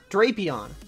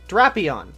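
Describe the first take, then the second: First: The first vowel is a long A. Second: The first vowel is a short A. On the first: The speaker calls it wrong. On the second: The speaker calls it right. "It's the short A sound"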